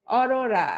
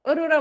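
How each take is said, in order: First: অরোরা starting on open aw, "ɔrora"; open vowel demo. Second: অরোরা starting on closed o, "orora"; wrong closed vowel. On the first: Teacher gives students the right form, অরোরা as open "ɔrora". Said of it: "এটা হচ্ছে বিবৃত উচ্চারণ". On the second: Teacher rejects this form for students, অরোরা as closed "orora". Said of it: "অরোরা বলি না". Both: Shown as a demonstration.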